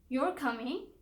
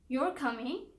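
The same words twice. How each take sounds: First: It sounds like a simple, curious question. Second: It sounds like a simple, curious question.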